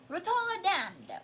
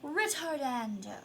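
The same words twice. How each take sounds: First: It is said in an attempted British accent. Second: It is said in the speaker's ordinary accent. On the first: "Now say it in a British accent" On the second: "Say it out loud"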